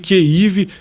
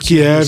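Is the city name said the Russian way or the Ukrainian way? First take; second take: Ukrainian; Russian. First: The name is said with the Ukrainian pronunciation. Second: The name is said with the Russian pronunciation. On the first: It uses the form the Ukrainians ask for. "que é a pronúncia ucraniana" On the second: It uses the form that comes from Russian. "Kiev é a pronúncia russa"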